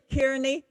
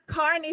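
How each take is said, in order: First: The name is said the American way. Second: The name is said the Irish way. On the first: "In America, maybe you say Kearney" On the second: "we would pronounce it Carney"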